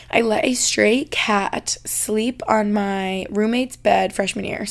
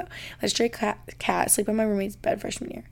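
First: Read very slowly. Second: Said in the usual way. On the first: Real, not acted. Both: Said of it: "I felt like I was reading that so slow".

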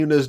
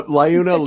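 First: Liuna's said as LEE-oo-na's; either-way pronunciation. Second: Liuna said as LIE-oo-na; either-way pronunciation. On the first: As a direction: start Liuna's with a "lee" sound. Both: Shown as a demonstration. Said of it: "say it either way and be right".

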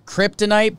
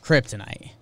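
First: Kryptonite blurted higher and louder; mock-thrilled kryptonite outburst; excited exclaim. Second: Said in the usual way. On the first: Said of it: "He's like".

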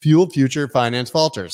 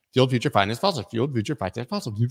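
First: Said in the usual way. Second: Fast tongue twister. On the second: Shown as a demonstration. Host testing a headline as a tongue twister, fast. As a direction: race through the tongue twister, speeding up. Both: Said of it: "Say that six times fast".

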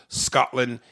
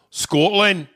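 First: Said in the usual way. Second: Loud, high Scottish imitation; exaggerated Scottish accent, raised and loud; mock Scottish accent. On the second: Repeats country in mock local accent.

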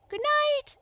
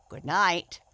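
First: Very high, loud small turtle voice; a tiny creature piping back goodnight; squeaky little turtle, loud. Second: Louder, cheery tree frog voice; a friendly frog calling goodnight; cheerful frog, said a little loud. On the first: Little turtle answers frog. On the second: Tree frog bids goodbye. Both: A narrator's reading.

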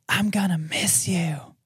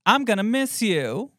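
First: Airy eerie whisper; ghostly whisper. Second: Said in the usual way. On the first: Pretend. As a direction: breathe it like a ghost. They believe it says. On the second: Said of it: "Is it B".

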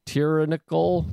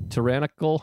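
First: Tyrannical as TEER-uh-nickel; unsure mispronunciation. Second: Tyrannical as tuh-RAN-ical; second pronunciation attempt. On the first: Trying out the word for a protest line, tyrannical said TEER-uh-nickel. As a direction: stress the first syllable of tyrannical, "TEER". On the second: Asking co-host how it is said, tyrannical as tuh-RAN-ical, questioning. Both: Shown as a demonstration. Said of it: "How do you say that?".

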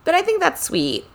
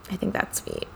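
First: Said in the usual way. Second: Softer echo of the phrase, said to herself; quiet afterthought; much softer repeat. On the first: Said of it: "repeats the phrase differently". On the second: Shown as a demonstration. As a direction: drop it almost to nothing. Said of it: "repeats the phrase much softer".

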